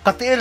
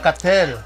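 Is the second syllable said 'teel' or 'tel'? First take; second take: teel; tel. First: The second syllable is said with a long 'ee' sound. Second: The second syllable is said with a short 'e' sound. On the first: The speaker calls it right. "Katiel palahan" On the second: The speaker calls it wrong. "hindi pala Katel"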